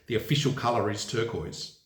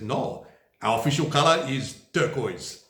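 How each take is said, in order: First: Said in the usual way. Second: A clumsy, hammed-up German accent; bad German accent. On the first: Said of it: "where it says". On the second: Vlogger quoting the German CDU in a bad German accent. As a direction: put on a deliberately poor German accent for the party's line. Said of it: "That was a very bad German accent".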